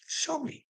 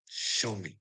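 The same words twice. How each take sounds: First: A sudden high, soft "Show me."; high dare. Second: "Show me." dropped low and soft; growl-free low, quiet "Show me."; low dare. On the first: Daring the people who treat him badly, high and soft. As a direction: toss "Show me." up high and quiet, teasing. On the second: Daring the people who treat him badly, low and quiet. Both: Acted.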